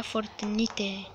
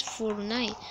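First: Fortnite read as Spanish, "fort-ni-te"; Spanish-style pronunciation. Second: Fortnite said the English way, "fort-nait"; English pronunciation. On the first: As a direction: sound out the final e in Fortnite. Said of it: "Sería en inglés, se pronuncia Fortnite". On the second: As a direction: say Fortnite in two syllables, silent e. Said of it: "se pronuncia Fortnite". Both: Shown as a demonstration.

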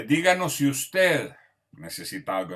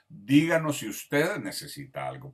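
First: Formal, courteous request, a touch louder; polite service request. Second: Said in the usual way. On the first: Shown as a demonstration. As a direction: ask like a polite waiter. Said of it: "en vez de decir el nombre". (petición formal y cortés)

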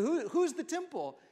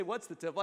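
First: "Who, who's" repeated, raised and louder; stress on WHO. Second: Said in the usual way. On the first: Shown as a demonstration. Preacher correcting the crowd, hitting "Who". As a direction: lean hard on "Who". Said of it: "I said". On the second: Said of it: "I didn't say".

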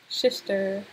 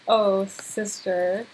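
First: "Sister" with sh for both s sounds; playful "shishter" for "Sister"; slurred sister. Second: Said in the usual way. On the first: Pretend. Word repeated with altered consonant.

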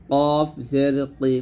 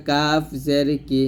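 First: Slow, heavy back q in "কফ জের কি"; thick qaf. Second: Light, front k in "কাফ জের কি"; thin kaf. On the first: Teacher contrasting qaf with kaf, heavily pronounced "কফ জের কি". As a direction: say "কফ জের কি" thick, from the tongue root. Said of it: "কফ মোটা হবে". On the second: Teacher contrasting kaf with qaf, lightly pronounced "কাফ জের কি". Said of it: "কাফ পাতলা হবে". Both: Shown as a demonstration.

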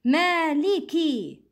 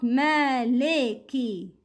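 First: Maliki with pure ee in li and ki; full kasra. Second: Maliki with "lay" in the middle; incomplete kasra. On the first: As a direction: complete both i vowels of Maliki. (Maliki said as maaleekee) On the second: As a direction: open the li of Maliki to eh, slowly. (Maliki said as malaykee) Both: Shown as a demonstration. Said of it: "Not Maliki".

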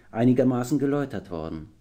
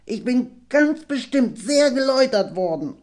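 First: Said in the usual way. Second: High, squeaky, eager little-dragon voice; half-dragon squealing eagerly; excited squeak. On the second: A narrator's reading. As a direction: squeak "sehr geläutert" with excitement. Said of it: "quiekte Nepomuk ganz aufgeregt".

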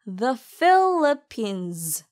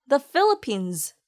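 First: The Philippines drawn out very slowly, weight on Philippines; slow, stressed Philippines. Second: The Philippines with a light, short The; natural pace. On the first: Teacher models the phrase slowly for learners. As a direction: stretch out Philippines syllable by syllable. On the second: Teacher gives the natural-speed version for learners. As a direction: say The light and quick, then Philippines. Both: Shown as a demonstration. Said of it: "the는 가볍고 짧게 발음하세요".

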